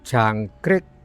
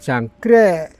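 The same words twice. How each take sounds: First: The final k is released sharply and clearly. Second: The final k is swallowed, not clearly released. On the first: This is how Banyumas speakers say it. "penerapan huruf K di belakang itu dengan tajam" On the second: This is how eastern speakers say it.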